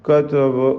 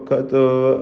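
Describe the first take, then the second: The two takes are said the same way.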